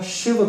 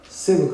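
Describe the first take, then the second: First: The word begins with a sh sound. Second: The word begins with an s sound. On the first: "हर जगह जो श वाला श है उसको न यूज करके" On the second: "स कहा है"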